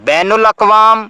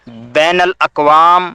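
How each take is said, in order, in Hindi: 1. 'bain' के बाद का स्वर 'u' है। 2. 'bain' के बाद का स्वर 'a' है। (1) "नून की पेश के साथ ... जो गलत है" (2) "नून के ज़बर के साथ"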